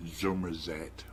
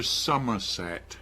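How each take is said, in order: First: "Somerset" as "Zummerzet", with a buzzing z and a rolled r; Somerset burr. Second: Said in the usual way. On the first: Shown as a demonstration. Gloucester speaker shows how locals say their county, West Country burr. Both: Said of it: "where we talk a bit with a R".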